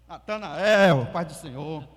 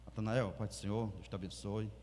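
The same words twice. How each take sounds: First: Loud, drawn-out happy hello; a mock overjoyed greeting at a wake; cheery greeting. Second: Much softer and lower, solemn murmur; a muted respectful condolence; hushed greeting. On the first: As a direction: greet him too brightly at a funeral. Inappropriately cheerful greeting at funeral. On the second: Retold or imitated. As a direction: greet him gently, in funeral quiet. Controlled hushed greeting at funeral.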